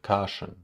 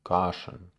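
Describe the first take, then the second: The two takes are said the same way.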